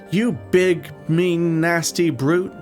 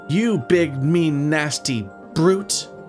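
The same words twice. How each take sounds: First: The word brute gets only light stress. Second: The word brute gets strong stress.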